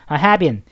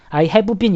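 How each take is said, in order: First: "I have been" run together as "a hae-bin", v dropped; linked pronunciation. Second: "I have been" with a full "beu" syllable after "have"; over-separated pronunciation. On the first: Teacher showing the better way, "I have been" linked as "a hae-bin". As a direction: merge "have been" into two syllables in "I have been". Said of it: "이러시 마시고 I have been". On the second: Teacher showing what to avoid, "I have been" over-separated as "hae-beu bin". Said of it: "이러시 마시고". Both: Shown as a demonstration.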